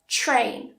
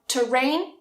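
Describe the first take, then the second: First: The t and r blend into a ch-like sound. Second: The t and r are separated by a vowel. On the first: The speaker calls it right. "more like a ch" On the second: The speaker calls it wrong. "So not terrain"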